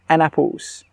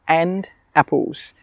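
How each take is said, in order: First: The D is dropped, words joined together. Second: The D is pronounced, words kept apart.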